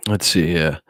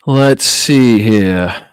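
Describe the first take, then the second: First: Said in the usual way. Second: Very slow, stretched-out thinking aloud; drawn-out musing. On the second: Shown as a demonstration. Streamer stalling while he hunts for an ending, drawn out slowly. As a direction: stretch every word while you think. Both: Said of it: "What can we end on that's a good note?".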